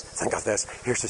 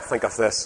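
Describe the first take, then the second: First: Whisper. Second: Said in the usual way. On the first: Shown as a demonstration. Preacher repeats, dropping to whisper.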